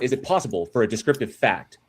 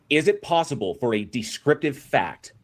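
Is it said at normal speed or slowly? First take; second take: normal; slowly. First: It is said at normal speed. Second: It is said more slowly.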